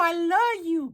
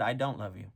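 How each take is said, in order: First: Very high, hammed-up wail; heartbroken plea. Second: Cold rejection. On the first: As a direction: plead in a squeaky mock cry. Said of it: "Maria's like". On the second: Acted. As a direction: reject them quietly, without drama. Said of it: "Gabriel said".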